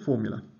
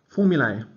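First: The final vowel is a short 'uh' sound. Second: The final vowel sounds like 'ay' in day. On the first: "but no one does. It's just formula" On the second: "they want us to call it, pronouncing the A like in day"

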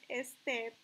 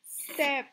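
First: An extra e vowel comes before the s. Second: The word starts directly with the s sound. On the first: The speaker calls it wrong. "tampoco decimos step" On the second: The speaker calls it right. "yo arranco desde ese sonido"

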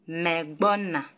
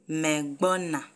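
Both takes have the same delivery.

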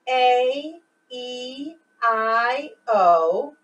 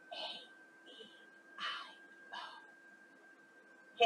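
First: It is spoken in a normal voice. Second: It is spoken in a whisper.

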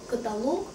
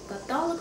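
First: The stress is on the last syllable. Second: The stress is on the second syllable. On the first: The speaker calls it right. "потому что монолог, диалог, полилог, некролог" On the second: The speaker calls it wrong. "Каталог, потому что аналог"

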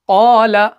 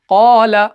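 First: The long vowel is held for about two counts. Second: The same.

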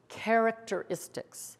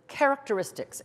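First: It is said slowly, syllable by syllable. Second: It is said quickly, syllables blended together.

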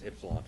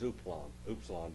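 First: The word begins with an 'ih' sound. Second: The word begins with an 'oo' sound. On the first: The speaker calls it right. "the correct pronunciation of the word ypsilon" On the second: The speaker calls it wrong. "they try to make it sound like a U"

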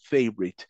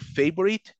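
First: The middle vowel is silent. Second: The middle vowel is clearly pronounced. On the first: The speaker calls it right. "La O se la comen prácticamente, no existe, es muda" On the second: The speaker calls it wrong. "No vamos a decir favorite, no"

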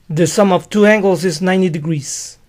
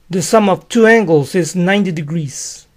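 No difference in how they are said.

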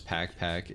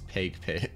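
First: The vowel sounds like the one in 'pack'. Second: The vowel sounds like the one in 'pake'. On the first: The speaker calls it wrong. "I also thought it was Pack Pack" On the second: The speaker calls it right. "It's Pake Pake"

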